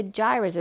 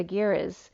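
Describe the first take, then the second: First: "gyres" said as "JAI-rez"; soft-g pronunciation. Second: "giras" said as "GHEE-rez"; hard-g pronunciation. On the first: Reader giving both versions of an ocean term, "gyres" as "JAI-rez". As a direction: start "gyres" with a j sound. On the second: Reader giving both versions of an ocean term, "giras" as "GHEE-rez". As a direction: start "giras" with g as in "geese". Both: Shown as a demonstration. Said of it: "not sure how they pronounce it".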